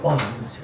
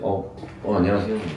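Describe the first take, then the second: First: It is said in an overly sweet, girly way. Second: It is said casually, as if to a guy.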